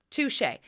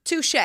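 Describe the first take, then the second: First: Said in the usual way. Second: "Touche" clipped, pitched high; "Touche" as a quick high rising quip; playful touche. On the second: Retold or imitated. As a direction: toss off "Touche" with a bright high lift. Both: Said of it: "And I was like".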